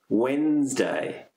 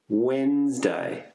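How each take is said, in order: The two takes are said the same way.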